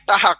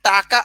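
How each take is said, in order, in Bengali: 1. মাঝের ব্যঞ্জনটি একটি h ধ্বনি। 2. মাঝের ব্যঞ্জনটি একটি k ধ্বনি। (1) "বরিশালের মানুষ ... টাকাকে বলে টাহা" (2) "টাকা আর টাহা"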